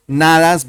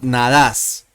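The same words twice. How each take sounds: First: "nadas" stressed on NA; stress on first syllable. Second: "nadas" stressed on DAS; stress on last syllable. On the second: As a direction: say "nadas" with the beat moved to the final syllable, na-DAS. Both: Shown as a demonstration. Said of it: "The accent changes".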